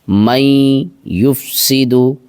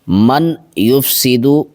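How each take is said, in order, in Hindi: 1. n ध्वनि अगले y में मिल जाती है। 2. n ध्वनि y से पहले साफ़ बोली जाती है। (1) "तो हो जाएगा मई" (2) "ये तरीक़ा गलत है, ऐसे नहीं पढ़ना इसको"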